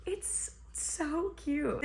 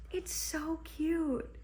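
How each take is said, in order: First: Slow, breathy, high whisper of delight; gushing whisper. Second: High and slow, melting over how cute it is; gushing. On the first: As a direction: whisper it slowly, as if too adorable to say aloud. Repeats the line as a whisper. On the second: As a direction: coo it higher, dragging every word. Gushing over a sweet scene in the book. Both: Real, not acted.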